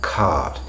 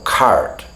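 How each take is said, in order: First: "cart" with a long vowel and silent R; "cart" with no R before the T; non-rhotic R. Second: "cart" with an American R before the T; American-accented "cart", R fully sounded; American rhotic accent. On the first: Shown as a demonstration. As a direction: say "cart" as British "caht". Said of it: "we don't pronounce that R either". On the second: Retold or imitated. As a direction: put a clear American R in "cart". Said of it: "They pronounce all of those R's".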